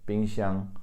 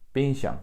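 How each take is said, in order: First: Every syllable keeps its full tone. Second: One syllable is said without its tone. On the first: This is how people in Taiwan say it. "in Taiwan, they would say all the tones in that word" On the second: This is how people in China say it. "in China, they would leave that out"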